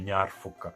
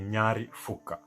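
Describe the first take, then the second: First: The first word ends without an added vowel. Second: The first word ends with an added vowel. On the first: "you can just say um" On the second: "The way I put the E at the end is because it gives it a nice little ring"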